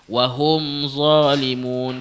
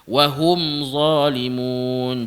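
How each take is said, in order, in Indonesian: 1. Vokal dalam hum terdengar seperti o yang terbuka. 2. Vokal dalam hum terdengar seperti u yang jelas. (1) "jangan baca wahum zalimun" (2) "Sama juga wahum zalimun"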